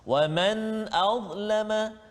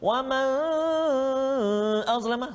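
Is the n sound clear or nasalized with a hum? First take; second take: clear; nasalized. First: The n is clear with no nasal hum. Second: The n is held with a nasal hum. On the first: The speaker calls it right. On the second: The speaker calls it wrong.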